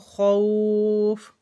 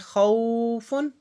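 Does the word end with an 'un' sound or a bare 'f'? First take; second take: bare 'f'; 'un' sound. First: The word ends on a bare 'f' sound. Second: The word ends with an added 'un' sound. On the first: The reader stops on this word. "जब हम यहाँ पे रुकेंगे साकिन होगा" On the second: The word is read without stopping on it. "जैसे कि खौफुन"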